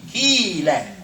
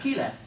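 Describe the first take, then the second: First: The first vowel is long. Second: The first vowel is short. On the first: The speaker calls it right. "Key. Long key" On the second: The speaker calls it wrong. "Not Kila"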